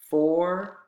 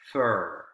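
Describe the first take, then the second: First: The word has its full vowel. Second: The vowel is reduced to a schwa.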